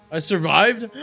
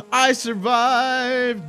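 First: Loud, raised-pitch exclamation; short triumphant outburst; exclaiming. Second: Loud, high, stretched-out holler; long, soaring victory yell; drawn-out triumphant cry. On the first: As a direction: call it out loudly and briefly. Celebrates surviving a stream mishap. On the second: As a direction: belt it out and hold the last word. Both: Real, not acted.

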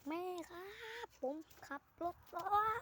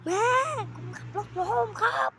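First: High, raised call across the house; calling out to mom. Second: High, loud desperate shout; shouting for mom. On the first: Calling to mom after crash. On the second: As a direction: yell it so mom hears. Calling mom again, no answer. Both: Pretend.

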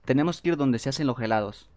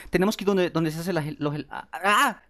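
First: Said in the usual way. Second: Flustered stumbling into a frustrated cry; higher-pitched, halting and flustered; nervous, tongue-tied. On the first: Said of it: "Perdón, es que me pongo nervioso". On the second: Real, not acted. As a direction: trip over the words, then groan out. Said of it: "es que me pongo nervioso".

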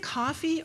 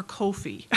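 First: "coffee" with an open ah; alternative pronunciation. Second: "Kofi" with a long oh; alternative pronunciation. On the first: Speaker joking about jargon, first pronunciation of "coffee", open ah. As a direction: say "coffee" as KAH-fee. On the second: Speaker joking about jargon, other pronunciation of coffee, long oh. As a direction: say "Kofi" as KOH-fee. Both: Shown as a demonstration.

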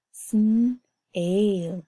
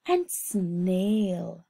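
First: "sn-ail" split, the second part louder; segmented. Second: Said in the usual way. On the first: Shown as a demonstration. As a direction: break "sn-ail" into two parts. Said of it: "teacher splits the word". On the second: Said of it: "teacher demonstrates sounding out".

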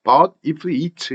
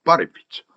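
First: "But if it" as three separate, fully sounded words; unlinked word-by-word. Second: "But if it" run together as "ba-re-pit"; linked as one. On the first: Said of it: "이러면 안 된다 이거예요". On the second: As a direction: link "But if it" quickly and lightly. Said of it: "한 묶음으로 굉장히 빠르고 가볍게". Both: Shown as a demonstration.

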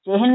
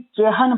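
First: "ਚਿਹਨ" squeezed into one syllable, chehn; wrong take of "ਚਿਹਨ" as chehn; mistaken reading. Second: "ਚਿਹਨ" as che-han; two-syllable reading. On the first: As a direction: run h into n in "ਚਿਹਨ", higher pitch. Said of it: "ਚਿਹਨ ਪੜ੍ਹਨਾ". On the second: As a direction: sound "han" fully in "ਚਿਹਨ". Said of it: "ਚੱਚੇ ਸਿਹਾਰੀ ਚੇ". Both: Shown as a demonstration.

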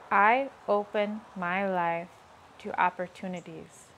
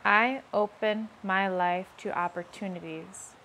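The two takes are said the same way.

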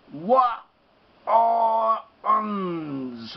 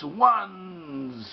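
First: ONES split into "Wa, O, uns"; sounded out in parts. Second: ONES joined as one long "wunz"; stretched, complete ONES; whole word, drawn out. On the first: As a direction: say each sound of ONES separately, drawn out. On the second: Whole word after sounding it out. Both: Shown as a demonstration.

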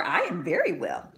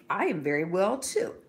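First: A hint of a small boy, brisk and bright; lightly voiced boy. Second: A hint of a gentle mother, different timbre; lightly voiced mother. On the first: Son answering his mother, a touch of boyish voice. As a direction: answer as the little son, simply. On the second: Mother reassuring her young son, lightly voiced.

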